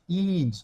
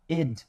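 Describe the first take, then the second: First: The vowel is a tense, clear 'ee' sound. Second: The vowel is lax, close to an 'e' sound. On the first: The speaker calls it wrong. "o som do I grande não é som de id" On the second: The speaker calls it right. "é o som de id. Quase um E o som"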